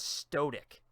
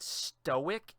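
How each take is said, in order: First: It is said with an extra T sound. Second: It is said without an extra T sound. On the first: The speaker calls it wrong. "I thought there was an extra T in there" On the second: The speaker calls it right. "the word stoic"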